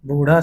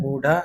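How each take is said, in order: First: Said in the usual way. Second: बूढ़ा with stopped ḍh; बूढ़ा said as बूढा; hard ढ. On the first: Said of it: "शुद्ध है". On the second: Shown as a demonstration. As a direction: say बूढ़ा without the flap. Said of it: "अशुद्ध होता है".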